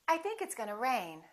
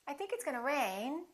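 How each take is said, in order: First: The pitch falls at the end. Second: The pitch rises at the end.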